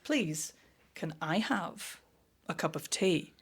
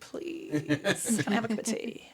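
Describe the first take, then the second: First: It is said flatly, without natural expression. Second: It is said naturally and expressively.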